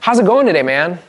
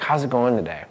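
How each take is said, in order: First: It is said loudly with high energy. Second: It is said calmly with low energy.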